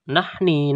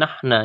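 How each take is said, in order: First: The word ends in an i vowel. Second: The word ends in an a vowel. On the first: "Ini tidak terbaca nahni" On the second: "nahna ya"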